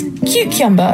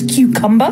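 First: The second syllable repeats the 'kyoo' sound. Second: The second syllable sounds like 'kum'. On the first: "I pronounce as cucumber" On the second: "the way you're supposed to pronounce it"

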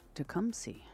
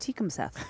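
First: The name ends with an 's' sound. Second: The name ends with a 'th' sound. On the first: The speaker calls it right. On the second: The speaker calls it wrong.

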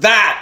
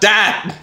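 First: The word begins with a soft th sound. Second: The word begins with a hard d sound. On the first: The speaker calls it right. "It's pronounced that" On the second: The speaker calls it wrong. "not dat"

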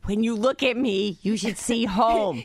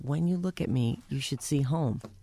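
First: The line is said at a louder volume. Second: The line is said at a normal, softer volume.

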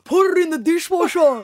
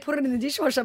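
First: It is said in an exaggerated Lebanese-Australian accent. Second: It is said in her plain everyday accent.

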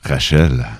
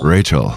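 First: It is said with a Québécois accent. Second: It is said with an English accent.

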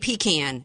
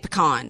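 First: It is said the way Georgia speakers say it. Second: It is said the way Louisiana speakers say it. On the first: This is how the other person's region says it. "y'all say pecan" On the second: This is how the speaker's own region says it. "we say pecan"

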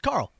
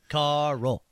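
First: The name is said as one syllable. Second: The name is stretched into two syllables. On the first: The speaker calls it right. "Just Carl" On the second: The speaker calls it wrong. "that sounds like you have to really work at that"

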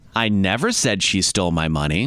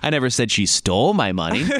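First: The stress is on the word 'never'. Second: The stress is on the word 'stole'. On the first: The speaker denies ever saying it. "meaning that I never said it" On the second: She may have borrowed or lost the money. "meaning maybe she borrowed it or she lost it"

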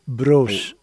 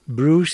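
First: The vowel is an 'o' sound. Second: The vowel is a 'oo' sound. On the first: The speaker calls it right. "it's O" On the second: The speaker calls it wrong. "It's not U"

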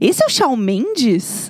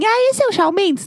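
First: It is asked in a disgusted, repulsed tone. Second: It is asked in a neutral, casual tone.

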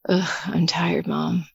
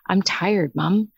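First: It sounds grumpy and drained. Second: It sounds content and satisfied.

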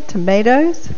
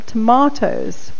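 First: It is said in an American accent. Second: It is said in a non-American accent.

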